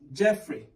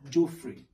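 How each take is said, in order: First: The first vowel is a short 'e' sound. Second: The first vowel is not a short 'e'. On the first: The speaker calls it right. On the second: The speaker calls it wrong.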